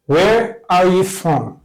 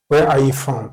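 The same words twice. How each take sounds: First: Each word drawn out for learners; very slow model. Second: Said in the usual way. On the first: Shown as a demonstration. Teacher modelling a phrase for students, very slow. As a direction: say it very slowly so students can copy. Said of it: "teacher models the question". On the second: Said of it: "teacher repeats at normal speed".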